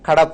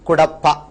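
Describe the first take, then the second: First: The first vowel sounds like 'a', as in Kadapa. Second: The first vowel sounds like 'u', as in Cuddapah. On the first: The original Telugu rendering of the name. "అది Telugu sound కాబట్టి" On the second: An English speaker's rendering of the name. "ఒక Britisher కడపను కడప అని పలకలేకపోయాడు"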